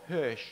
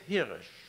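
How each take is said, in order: First: The name is given an English pronunciation. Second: The name is given a German pronunciation.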